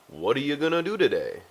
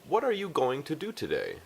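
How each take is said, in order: First: The words are reduced and run together. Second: Each word is pronounced clearly and separately. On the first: "in the United States, we would say" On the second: "I am enunciating these words very clearly"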